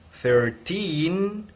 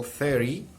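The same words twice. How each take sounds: First: Put-on "Thirteen" said as thir-TEEN, voice rising on "teen"; "Thirteen" with the weight and rise at the end; stress at the end. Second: "thirty" said as THIR-ty, first syllable highest; "thirty" stressed up front, weak ending; stress at the start. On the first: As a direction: push "teen" up high. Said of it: "here is the highest". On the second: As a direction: hit the start of "thirty", drop the end. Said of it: "the highest tone of voice is at the beginning". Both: Shown as a demonstration.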